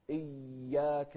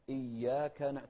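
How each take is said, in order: First: إياك with the doubled y held far too long; slow, lean hard on the y of إياك; overdone shadda. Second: إياك with a briefly doubled y; light shadda. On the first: Retold or imitated. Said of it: "لا نقول". (مبالغة في تشديد إياك) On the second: Shown as a demonstration. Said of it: "تشديد خفيف". (إياك بتشديد خفيف)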